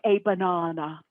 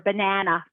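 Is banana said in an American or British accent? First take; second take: British; American. First: It is said in a British accent. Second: It is said in an American accent.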